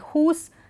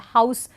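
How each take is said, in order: First: It has the older, medieval vowel sound. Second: It has the modern vowel sound. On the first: This is how it was said in medieval times. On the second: This is how it is said today.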